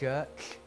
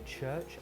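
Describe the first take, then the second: First: The ch sounds are distorted by a speech impediment. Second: The ch sounds are pronounced clearly and normally. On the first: This is how a child with a speech impediment said it. The speaker calls it wrong. "I would say church" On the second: This is how the word should sound. The speaker calls it right. "I couldn't say church"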